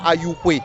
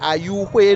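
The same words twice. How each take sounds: First: The word is said without the high tone. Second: The word is said with a high tone. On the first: It is the name as outsiders say it. The speaker calls it wrong. "non pas" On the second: It is the name as said in the local language. The speaker calls it right. "je le prononce dans la langue Aïzo, ... intonation aiguë"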